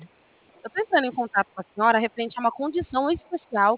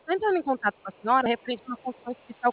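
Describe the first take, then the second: First: The sentence is spoken slowly. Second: The sentence is spoken quickly. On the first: The speaker calls it right. "vou falar mais devagar" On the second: The speaker calls it wrong. "Desculpa se eu falei rápido"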